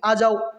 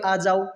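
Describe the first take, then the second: First: It is called out loudly. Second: It is called out at normal volume. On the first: This is calling out to someone, a step beyond calling. "जोर से बोल के" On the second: This is simply calling someone. "Normally तरीके से आवाज लगवाई"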